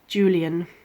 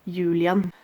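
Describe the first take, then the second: First: The name is pronounced the English way. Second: The name is pronounced the Norwegian way.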